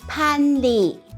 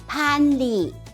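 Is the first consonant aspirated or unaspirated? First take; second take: aspirated; aspirated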